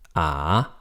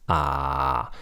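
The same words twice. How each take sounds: First: The pitch starts low and rises slightly. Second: The pitch stays low and flat. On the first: The syllable is at the end of a sentence. "it rises a little bit at the end" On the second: The syllable is in the middle of a sentence. "low flat when it's in the middle of a sentence"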